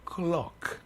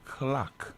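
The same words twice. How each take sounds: First: The word is said with a local accent. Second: The word is said with an American accent.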